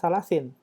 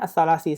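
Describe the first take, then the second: First: The word ends with an added n sound. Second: The word ends on a plain i vowel. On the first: The speaker calls it wrong. "jangan salasin" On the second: The speaker calls it right. "bacanya as-salasi saja"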